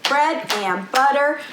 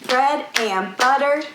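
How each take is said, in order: The two takes are said the same way.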